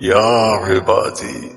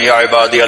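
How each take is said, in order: First: The call is said tenderly, with loving warmth. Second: The call is recited flatly, without warmth. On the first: The speaker calls it right. "इसमें जो मोहब्बत है" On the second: The speaker calls it wrong. "जैसे ही हमारे कारी पढ़ते हैं ... ये नहीं है"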